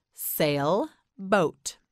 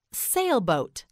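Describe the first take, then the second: First: "Sailboat" with a clear gap between sail and boat; split in two. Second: Said in the usual way. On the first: Shown as a demonstration. Teacher models a word for learner, "Sailboat" split in two. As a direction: break "Sailboat" into two slow separate parts. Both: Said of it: "You say it".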